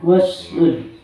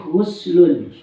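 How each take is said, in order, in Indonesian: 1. Vokal pertama terdengar seperti ah. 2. Vokal pertama terdengar seperti oo. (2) "dibaca dhammah ghinnya"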